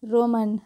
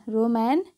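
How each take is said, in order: First: रोमन with a short schwa, 'ro-mun'; correct pronunciation demo. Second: रोमैन ending in 'man', pitch rising; mispronunciation demo. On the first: Teacher modelling for learners, रोमन with unstressed 'mun' ending. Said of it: "इसका उच्चारण क्या होता है". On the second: Teacher showing what to avoid, रोमैन with rising 'man' ending. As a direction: say रोमैन as 'ro-MAN' with a questioning lift. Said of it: "नहीं, ठीक है". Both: Shown as a demonstration.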